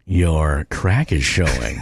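It is said in a flirty tone.

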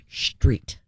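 The s sounds like sh, Northeast style.

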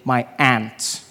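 It is said in an American accent, like 'ant'.

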